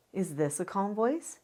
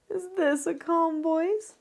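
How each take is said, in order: First: Even, gentle, plain-level question; calm voice. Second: High, slow, strained voice; tense uncalm voice. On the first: Parent demonstrating the calm voice, gentle. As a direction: ask it steadily and calmly. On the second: Parent demonstrating another uncalm voice, strained. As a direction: squeeze it out tight and high. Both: Shown as a demonstration.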